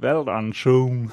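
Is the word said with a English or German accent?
English. It is said with an English accent.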